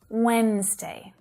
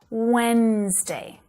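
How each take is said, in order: First: The word is said with two syllables. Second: The same.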